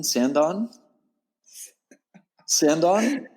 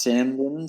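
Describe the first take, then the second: First: "Sandon" as a high rising question, full "-don" ending; unsure pronunciation. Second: "Sandon" drawn out very slowly, questioning rise; careful sounding-out. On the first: Surfer checking the place name with host, high questioning "Sandon". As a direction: try "Sandon" with an "on" ending, pitched up, doubting. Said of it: "did I have it wrong?". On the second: Surfer asked to repeat where he surfed, slow unsure "Sandon". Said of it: "Can you say that again?". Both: Real, not acted.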